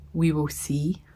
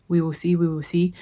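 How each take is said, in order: First: Soft unvoiced whisper. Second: Said in the usual way. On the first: Real, not acted. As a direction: breathe it under your breath. Whispered aside about surgery.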